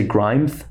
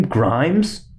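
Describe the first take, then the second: First: "Grimes" with the final s lisped to th; mock lisp. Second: Said in the usual way. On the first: Shown as a demonstration. Comic teasing the singer's lisp, "[name]" lisped as "Grimeth". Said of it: "She has a lisp". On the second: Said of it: "Should I say [name]?".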